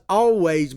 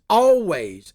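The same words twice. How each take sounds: First: Said in the usual way. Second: ALWAYS punched a bit louder with a falling tune; emphasized always. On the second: Shown as a demonstration. Host to his viewers on bipartisanship, stressing always. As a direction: lean hard on always and let it drop. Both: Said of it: "and I emphasize always".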